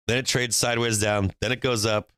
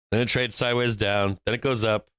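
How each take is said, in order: Both takes have the same delivery.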